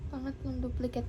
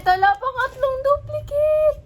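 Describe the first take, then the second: First: Low, soft, deflated murmur; subdued disbelief. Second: High, loud wail of disbelief; shocked outcry. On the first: Vlogger accepting a third duplicate, subdued low murmur. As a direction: say it quietly as the shock sinks in. Repeats it after the shock. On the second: Vlogger finding a third duplicate, shocked loud outcry. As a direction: cry out in dismay, pitch way up. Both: Real, not acted.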